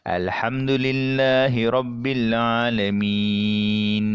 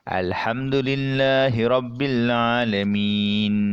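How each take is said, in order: First: The last long vowel is held six beats. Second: The last long vowel is held four beats. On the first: "kita baca dengan enam harakat" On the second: "kita baca dengan empat harakat"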